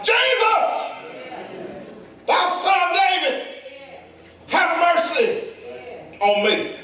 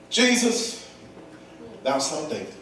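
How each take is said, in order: First: High, ringing desperate cry, dropping at the end; high beggar's shout for mercy; hollering at full lung. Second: Quiet, understated appeal, falling away low; soft, matter-of-fact calling; sensible, restrained cry. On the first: Acted. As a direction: holler each phrase out, pausing between. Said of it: "He cried". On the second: Shown as a demonstration. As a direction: say it like you had sense. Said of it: "he didn't do it like that".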